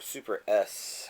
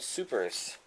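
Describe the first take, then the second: First: It is said as 'super' plus the letter S. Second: It is said as one word, 'supers'. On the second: "I think they pronounce it Supers in the uh, Japanese version"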